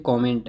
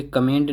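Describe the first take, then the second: First: कमेंट opening with an o, "ko-ment"; correct pronunciation. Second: First कमेंट with weak "kuh" opening; wrong pronunciation. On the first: Teacher correcting learners' reading, कमेंट said ko-ment. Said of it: "ये कमेंट है". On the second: Teacher rejecting a common misreading, कमेंट said kuh-ment. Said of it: "ये कमेंट नहीं कमेंट है". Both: Shown as a demonstration.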